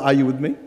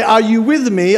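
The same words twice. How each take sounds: First: Filipino style. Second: Said in the usual way. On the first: Shown as a demonstration. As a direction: ask it the Filipino way, lower and with a rising end. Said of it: "give me a Filipino sort of". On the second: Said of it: "So tonight when I say".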